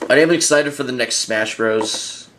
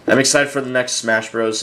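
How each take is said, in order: First: It is said in an odd, unusual accent. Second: It is said in the speaker's normal accent.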